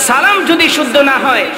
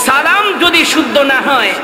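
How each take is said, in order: Both takes have the same delivery.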